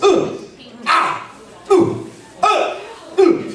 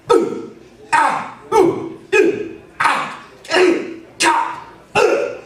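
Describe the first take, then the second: First: High, weak fake grunts of being punched; punch grunts lacking impact. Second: High, sharp grunts of being punched; believable punch grunts. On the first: Teacher showing what most people do when punched, unconvincing grunts. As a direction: fake getting hit, with no impact behind it. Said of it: "what most people do is". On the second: Teacher dropping onto heels to fake punches, believable impact grunts. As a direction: grunt as if a blow jolts up through the lungs. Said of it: "Listen to the difference here". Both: Shown as a demonstration.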